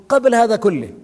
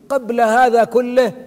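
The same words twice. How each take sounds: First: Said in the usual way. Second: "قبل هذا كله" drawn out slowly and firmly; slow emphatic repeat. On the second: Real, not acted. Preacher driving home what comes before good deeds, slow emphatic repeat. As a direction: stretch out each word of "قبل هذا كله".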